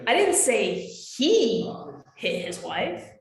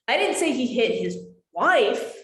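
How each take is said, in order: First: The stress is on "he". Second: The stress is on "wife".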